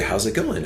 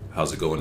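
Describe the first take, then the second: First: It is said in a put-on, polite customer-service voice. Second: It is said in the speaker's own natural voice. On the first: It makes the speaker seem less threatening. "he puts on that" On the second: It can scare people. "using my normal voice"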